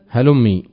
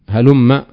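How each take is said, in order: First: The final m is followed by an i vowel. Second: The final m is followed by an a vowel. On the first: "بالكسر" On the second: "بفتح الميم"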